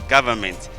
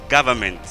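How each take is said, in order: Both takes have the same delivery.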